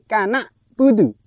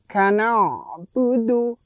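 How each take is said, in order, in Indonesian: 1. Bunyi 'ain' berhenti mendadak sebelum 'budu'. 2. Bunyi 'ain' mengalir halus ke 'budu'. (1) "Kurang tepat" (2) "Yang benar bagaimana?"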